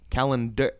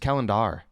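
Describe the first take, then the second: First: The last syllable is said like 'air'. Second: The last syllable is said like 'er'. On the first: "air like er" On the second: "It's calendar"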